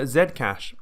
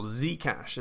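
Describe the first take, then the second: First: Said in the usual way. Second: Zcash said as "zee-cash"; softer "zee-cash", the American way; American pronunciation. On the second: Shown as a demonstration. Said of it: "as the Yanks say".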